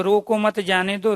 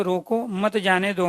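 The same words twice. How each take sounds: First: रोको मत joined, then जाने दो; group रोको with मत before जाने दो; pause after मत. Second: रोको alone, then मत जाने दो joined; pause after रोको. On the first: Teacher recapping comma placement for students, pause after मत. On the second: Teacher recapping comma placement for students, pause after रोको. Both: Shown as a demonstration. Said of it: "अलग-अलग जगह पर विराम चिन्ह".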